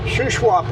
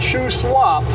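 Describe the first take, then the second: First: It does not sound like shoe swap. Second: It sounds like the words shoe swap. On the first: The speaker calls it right. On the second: The speaker calls it wrong.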